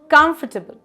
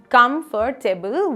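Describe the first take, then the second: First: The syllables are squeezed into fewer. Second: All the syllables are said in full. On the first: The speaker calls it right. "let's squeeze this" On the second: The speaker calls it wrong. "how do you say this word?"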